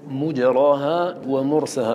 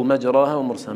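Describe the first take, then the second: First: مجراها said as mujraha, first vowel u; مجراها pronounced mujraha, slowly. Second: مجراها said as majraha, first vowel a; مجراها pronounced majraha. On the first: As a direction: open مجراها with a rounded u, mujraha. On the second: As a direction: open مجراها with a plain a, majraha. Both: Shown as a demonstration. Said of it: "ما معنى مجراها ومجراها؟".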